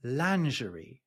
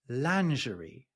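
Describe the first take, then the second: First: It is said with a British, French-like pronunciation. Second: It is said with a British, French-like pronunciation.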